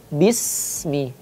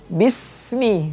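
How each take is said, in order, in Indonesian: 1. Huruf tengah itu adalah bunyi s biasa. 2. Huruf tengah itu adalah bunyi th yang lembut. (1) "harus dibaca tepat bismi" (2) "tidak boleh dibaca bismi, nggak boleh"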